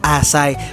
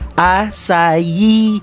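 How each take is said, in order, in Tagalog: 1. Dalawang pantig ang bigkas sa salita. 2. Tatlong pantig ang bigkas sa salita.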